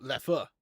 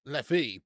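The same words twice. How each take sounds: First: Leffer, final uh not ee; proper Leffer. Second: Leffy said LEF-ee with an ee ending; Leffy, English ee ending; anglicised Leffy. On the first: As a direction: Leffer with the uh sound. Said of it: "pronounced with an uh sound". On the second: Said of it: "Not lef-, Leffy, but Leffer". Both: Shown as a demonstration.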